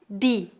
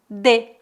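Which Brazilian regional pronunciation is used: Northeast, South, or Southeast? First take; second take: Northeast; South. First: It is said the Northeastern Brazilian way. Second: It is said the Southern Brazilian way. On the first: "Em algumas regiões do Nordeste, as pessoas pronunciam di" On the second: "em algumas cidades do Sul, as pessoas pronunciam de"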